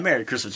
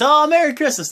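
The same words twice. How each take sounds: First: Said in the usual way. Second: Very high, loud gushing Merry Christmas; hammed-up cheery greeting. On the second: Jason Jordan greeting everyone, hammed-up and very high. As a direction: gush the greeting like an overexcited guest. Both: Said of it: "comes in and says".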